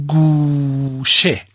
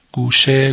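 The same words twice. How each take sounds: First: گوشه drawn out very slowly, long "guu" then "she"; slow teacher's demonstration of گوشه in two syllables. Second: Said in the usual way. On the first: Shown as a demonstration. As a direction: stretch the first syllable of گوشه, then drop on the second. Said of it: "مثلاً کلمهٔ". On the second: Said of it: "گوشهٔ اتاق".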